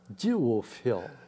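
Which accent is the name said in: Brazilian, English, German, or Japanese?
English. It is said with an English pronunciation. This is how people say it in England. "E na Inglaterra"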